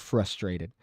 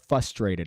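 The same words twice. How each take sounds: First: The word is pronounced in the standard way. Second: The word is pronounced in an altered, imitated way.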